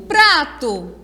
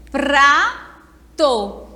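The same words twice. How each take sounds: First: Said in the usual way. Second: "Prato" split as pra, pause, to; syllable by syllable. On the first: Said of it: "Quantas sílabas tem?". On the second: Shown as a demonstration. Teacher answers how many syllables, "Prato" broken in two. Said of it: "Duas sílabas".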